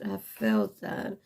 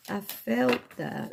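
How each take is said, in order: First: Low, drawn-out playful repeat of "I felt that"; mock-deep echo of own words. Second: Said in the usual way. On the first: Shown as a demonstration. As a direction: drop the voice way down and slow for "I felt that". Repeats line in deeper voice.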